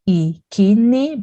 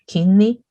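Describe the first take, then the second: First: The word starts with an i vowel. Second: The word starts with a k sound. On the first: It is the ordinal number on its own. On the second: It is used together with the word for month.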